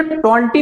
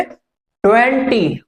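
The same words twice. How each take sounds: First: ट्वेंटी said as "टेंटी", with no w sound; wrong way to say it. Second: ट्वेंटी said slowly with a clear "ट्व" w glide; correct pronunciation. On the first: Teacher shows students the wrong way: ट्वेंटी without the w. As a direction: drop the w in ट्वेंटी, saying "टेंटी". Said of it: "इसे ट्वेंटी नहीं बोलेंगे". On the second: Teacher shows students the right way: a slow, careful ट्वेंटी. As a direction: say ट्वेंटी carefully, stressing the tw at the start. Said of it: "आप बोलेंगे ट्वेंटी". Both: Shown as a demonstration.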